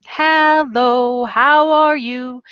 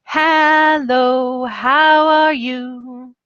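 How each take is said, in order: First: Higher, slower, stretched hello; sing-song teacher greeting. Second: Higher and slow, drawn out like an announcer; microphone-style greeting. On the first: Teacher greeting young students online in a sing-song voice. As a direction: greet a child brightly and slowly. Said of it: "I go". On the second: Teacher with a microphone greeting students in a slow, stretched, higher voice. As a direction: stretch it into the mic for the kids. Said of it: "I'll be like this". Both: Shown as a demonstration.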